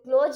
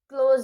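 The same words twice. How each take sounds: First: The word ends with an s sound. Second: The word ends with a z sound. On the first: The speaker calls it wrong. "बहुत लोग इसे क्लोज बोलते हैं, वो क्लोज नहीं" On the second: The speaker calls it right. "याद रहे कि ये जा है"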